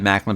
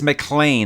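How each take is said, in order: First: The last syllable has a short 'i' vowel. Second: The last syllable has a long 'ee' vowel. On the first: The speaker calls it wrong. "I've said Macklin. People are like, that's wrong" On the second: The speaker calls it right. "I believe it's McLean"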